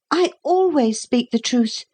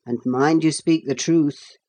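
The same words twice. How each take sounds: First: Put-on high-pitched, proud small boy's voice. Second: Measured officer's warning in an adult register; cautioning captain. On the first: Boy answering the captain, proud. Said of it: "said Philip proudly". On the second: Captain questioning a boy, lightly cautioning. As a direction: caution the boy with a touch of authority. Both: A narrator's reading.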